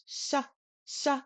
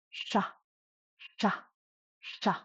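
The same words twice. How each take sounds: First: High-tone sha like English SH; front-of-mouth sha. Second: Sha with the tongue curled up and back; retroflex low-tone sha. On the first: Teacher contrasts the two sha sounds, sha at the front. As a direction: bring sha forward, pitched higher. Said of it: "much closer to the front of the mouth". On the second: Language teacher demonstrates a low-tone letter, sha with curled tongue. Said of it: "your tongue is curled up, touching the roof". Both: Shown as a demonstration.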